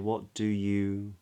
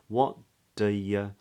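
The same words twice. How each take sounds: First: Both 'do' and 'you' have a full oo vowel. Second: Both 'do' and 'you' have a reduced schwa vowel. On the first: "we can use two oo vowels" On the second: "you can be pronounced as a schwa as well, with a schwa"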